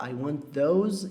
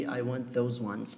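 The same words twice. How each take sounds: First: Slow model phrase. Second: Slow wrong example. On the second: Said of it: "em vez de". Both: Shown as a demonstration.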